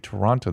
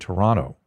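First: It is said the way outsiders say it. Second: It is said the way Toronto locals say it.

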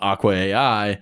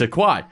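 First: It is said as aqua plus letters A, I. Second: It is said as one single blended word. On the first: The speaker calls it wrong. "I keep calling it Aqua A-I" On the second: The speaker calls it right. "obviously it's Aquai"

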